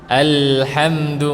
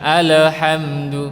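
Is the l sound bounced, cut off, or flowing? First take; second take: flowing; bounced. First: The l flows smoothly into the next sound. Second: The l is bounced with an echo. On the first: The speaker calls it right. "menyambung ya, ada aliran suaranya" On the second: The speaker calls it wrong. "Tidak dipantulkan, bukan alhamdu"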